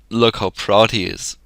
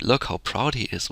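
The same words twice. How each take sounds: First: It is said in an angry, resentful tone. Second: It is said in a joyful, pleased tone. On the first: The speaker is annoyed by his pride. "the second one it said it was anger. Maybe it was like" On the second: The speaker is happy about what he achieved. "the first annotator said it was joy, so it was like"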